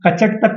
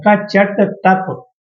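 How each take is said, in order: First: Said in the usual way. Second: कचट तप very slow, syllable by syllable; slow dictation. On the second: Shown as a demonstration. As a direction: space out each sound of कचट तप for note-takers. Dictates the mnemonic for writing down.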